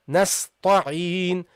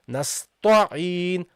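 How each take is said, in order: No difference in how they are said.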